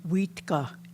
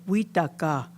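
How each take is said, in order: First: The t and k sounds run together directly. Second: An extra vowel separates the t and k. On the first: The speaker calls it right. "the two consonants come together" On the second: The speaker calls it wrong. "don't say wheataka"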